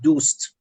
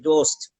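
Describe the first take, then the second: First: It has a modern Persian 'oo' vowel. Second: It has an Urdu-style 'oh' vowel.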